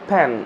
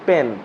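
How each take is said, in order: First: The p has a strong puff of breath. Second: The p is plain, with little breath.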